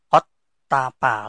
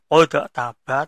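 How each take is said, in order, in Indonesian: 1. Bunyi d langsung menyambung ke bunyi berikutnya. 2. Bunyi d dilepas sebagai pantulan yang terpisah. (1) "tapi kotapa langsung ya" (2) "Membacanya bukan kodok taba"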